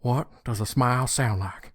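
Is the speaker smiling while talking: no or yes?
yes. It is spoken while smiling, sounding brighter. "with a smile"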